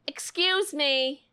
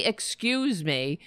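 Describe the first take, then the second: First: Snide excuse me. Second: Sarcastic prim excuse me; overly polite mock apology. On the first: Retold or imitated. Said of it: "And you're like". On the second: Host mocking a congresswoman, sarcastic politeness. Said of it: "How do you say".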